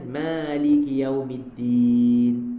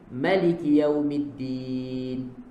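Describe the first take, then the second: First: The first vowel of Maliki is drawn out long. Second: The first vowel of Maliki is kept short. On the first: "alif mat" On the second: "dia tak baca dengan mat"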